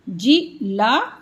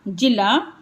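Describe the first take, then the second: First: जी ला spoken slowly apart; slow split syllables; slow separated syllables. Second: Said in the usual way. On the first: Shown as a demonstration. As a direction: sound out जी ला slowly. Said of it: "आ का sound भी आएगा इसमें".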